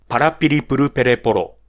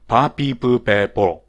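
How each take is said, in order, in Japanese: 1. それぞれの r は、はっきり弾かれている。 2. r の音が抜けて、長母音だけが残っている。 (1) "これが正しいラ行の言い方ですね" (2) "ラ行がア行に変わってしまう人ですね"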